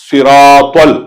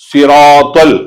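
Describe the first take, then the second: No difference in how they are said.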